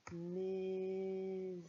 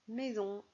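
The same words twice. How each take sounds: First: MAISON stretched very slowly on a level pitch; slow, held-out syllables in MAISON; sounding out. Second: Said in the usual way. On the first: Shown as a demonstration. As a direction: draw out each sound of MAISON as you write. Sounded out while writing it.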